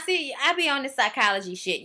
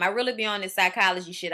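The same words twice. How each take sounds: First: Said in the usual way. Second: Really leaned on, a bit faster; stress on really. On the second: Real, not acted. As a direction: push hard on really to insist. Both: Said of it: "Y'all think it's a game".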